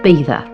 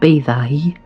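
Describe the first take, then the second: First: The final vowel is said short. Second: The final vowel is drawn out long. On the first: The speaker calls it right. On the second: The speaker calls it wrong. "not bathai"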